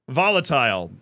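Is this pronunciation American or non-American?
non-American. It is said with a non-American pronunciation.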